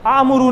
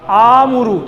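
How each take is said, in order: First: The first vowel is short. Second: The first vowel is drawn out long. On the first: The speaker calls it wrong. "आमुरू नहीं" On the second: The speaker calls it right. "थोड़ा लंबा करेंगे"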